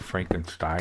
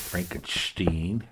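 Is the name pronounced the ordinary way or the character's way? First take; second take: ordinary; character's. First: The name is pronounced the ordinary way. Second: The name is pronounced the character's own way.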